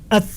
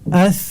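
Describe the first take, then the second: First: The consonant is pressed hard with little breath. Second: The consonant is soft with breath flowing out. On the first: The speaker calls it wrong. "Ketika dibaca dengan kuat, ditekan dengan kuat" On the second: The speaker calls it right. "ada aliran nafas yang mengalir"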